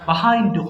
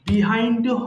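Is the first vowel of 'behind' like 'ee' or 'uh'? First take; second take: uh; ee. First: The first vowel sounds like 'uh'. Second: The first vowel sounds like 'ee'. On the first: "both প্রনাউন্সিয়েশনস আর correct." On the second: "এইটাকে দুই ভাবে উচ্চারণ করতে পারেন।"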